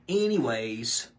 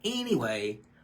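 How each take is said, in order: First: The word ends with an added s sound. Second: The word ends without an s sound. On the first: The speaker calls it wrong. "they'll add an S to it" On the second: The speaker calls it right. "There's no S to anyway"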